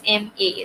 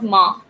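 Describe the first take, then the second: First: It is said as two separate letter names. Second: It is said as a single syllable word. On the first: The speaker calls it right. "This is M A" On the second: The speaker calls it wrong. "this is not ma"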